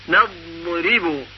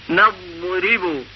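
The two takes are said the same way.

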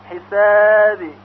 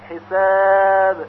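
First: The final b leans toward an i sound. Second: The final b has no vowel after it. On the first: The speaker calls it wrong. "اگر به طرف کسره میل پیدا کنه حسابی غلط هست" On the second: The speaker calls it right. "بلکه باید به طور ساکن تلفظ بشه"

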